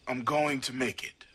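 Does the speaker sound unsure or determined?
determined. It sounds firm and convinced.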